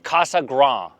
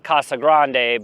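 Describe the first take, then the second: First: The word ends without any 'dee' syllable. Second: The word ends with an extra 'dee' syllable. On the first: The speaker calls it right. "You don't say the D E at the end" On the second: The speaker calls it wrong. "I want to call it"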